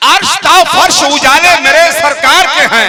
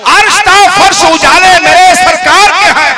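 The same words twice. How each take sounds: First: Loud, slow recited naat line; reciting a verse. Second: Louder, higher full-throated naat line; full-voice recitation. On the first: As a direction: intone it slowly for the gathering. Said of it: "फिर से पढ़ता हूं". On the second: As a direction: give it everything, full voice to the crowd. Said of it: "पूरा मैं पढ़ता हूँ". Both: Acted.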